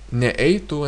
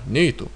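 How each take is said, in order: First: An extra separate e sound follows ne. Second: The prefix joins smoothly with no extra vowel. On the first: The speaker calls it wrong. "There cannot be such things in Lithuanian" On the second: The speaker calls it right. "There's only smooth"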